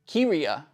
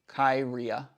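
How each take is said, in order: First: The first syllable does not sound like 'kai'. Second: The first syllable sounds like 'kai'. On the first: The speaker calls it right. "Pronounced Kiria" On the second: The speaker calls it wrong. "I would go Kai"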